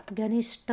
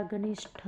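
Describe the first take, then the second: First: घनिष्ठ ending in a hard "ṭ"; wrong, unaspirated. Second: घनिष्ठ ending in breathy "ṭh"; correct, aspirated. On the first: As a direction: say घनिष्ठ as "ganisṭ", no puff. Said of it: "नहीं होता". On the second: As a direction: say घनिष्ठ as "ganisṭh", with a puff. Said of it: "होता है". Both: Shown as a demonstration.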